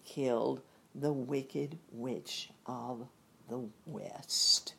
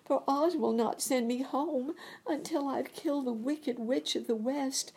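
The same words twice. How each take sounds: First: Storyteller drops into a grave hush; slow ominous narration. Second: Put-on high, young girl's plea; lifted girlish voice; Dorothy's voice. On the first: A narrator's reading. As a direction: let the witch's name land darkly. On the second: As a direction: voice the little girl near tears. Dorothy speaks, quoted in the story.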